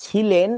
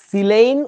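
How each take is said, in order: First: ছিলেন with "chh" for s; wrong chh pronunciation. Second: সিলেইন loud and slow with a hissed s; dental s pronunciation. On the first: Teacher mocking the ছ mistake, ছিলেন as "chhi-len". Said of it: "ছ দিয়ে না". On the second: Teacher insisting on দন্ত স, সিলেইন with clear s. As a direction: say সিলেইন as "si-leyn", loudly stretched. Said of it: "দন্ত স দিয়ে". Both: Shown as a demonstration.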